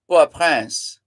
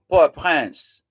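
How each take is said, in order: First: The name is said with French pronunciation. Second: The name is said with French pronunciation.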